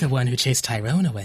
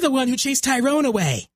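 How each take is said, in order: First: The voice is low, slow and sultry. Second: The voice is high, bright and childlike.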